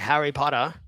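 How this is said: It is said in an Australian accent. "an Australian guy would say"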